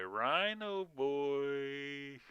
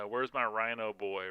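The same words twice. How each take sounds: First: Very slow, drawn-out playful call; sing-song calling. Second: Said in the usual way. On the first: Acted. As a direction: call him like a lost pet. Calling for his game character.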